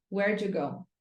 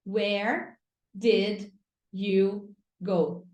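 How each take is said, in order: First: "Where'd you go" blended into "wherdju go", lower pitch; fuse "Where'd you" into one unit; casual linked "Where'd you go"; connected real-life speech. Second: Slow, separate "Where. Did. You. Go."; careful diction with pauses after each word; textbook English. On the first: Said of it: "a pessoa fala assim pra você". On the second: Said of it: "Na escola você aprende assim". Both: Shown as a demonstration.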